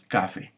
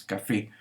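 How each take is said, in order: First: "café" as CÁ-fe, falling on the end; wrong stress on first syllable. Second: "café" with FÉ stressed; correct final stress. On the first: Teacher showing what we don't say, "café" stressed on CA. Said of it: "ni decimos café". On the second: Teacher giving the correct form, "café" stressed on FÉ. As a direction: lean on the last syllable of "café". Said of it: "y decimos café". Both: Shown as a demonstration.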